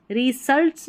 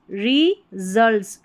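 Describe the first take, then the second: First: "रिजल्ट्स" said quickly as ri-sults, with hissed S; wrong S sound. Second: "रिजल्ट्स" slowly, with a buzzed Z in the middle; S read as Z. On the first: Teacher warning learners off a reading, "रिजल्ट्स" with an S sound. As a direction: put a plain S in "रिजल्ट्स", not Z. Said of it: "नहीं बोलेंगे". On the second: Teacher showing learners the S as Z, "रिजल्ट्स" said slowly with Z. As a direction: split "रिजल्ट्स" as ri-zults, voiced Z. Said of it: "एस को ज पढ़ा जा रहा है". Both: Shown as a demonstration.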